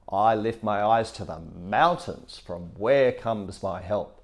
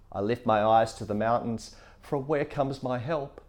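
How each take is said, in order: First: It ends with a falling statement tune. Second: It ends with a rising question tune.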